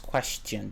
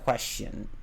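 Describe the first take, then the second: First: The T sound in the middle is pronounced. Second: The T sound in the middle is dropped. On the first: The speaker calls it right. "it's question. There's a T in there" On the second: The speaker calls it wrong. "It's not question"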